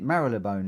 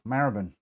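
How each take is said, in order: First: It is pronounced close to its spelling. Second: It is pronounced the traditional local way. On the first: This is how people say it now. "they call it Marylebone now, the way it's sort of spelt" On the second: This is how older Londoners say it. "I was brought up old school"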